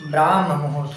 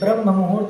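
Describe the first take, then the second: First: The first vowel is long. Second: The first vowel is short. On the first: The speaker calls it right. "ब्राह्म मुहूर्त होता है" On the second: The speaker calls it wrong. "ब्रह्म मुहूर्त नहीं होता"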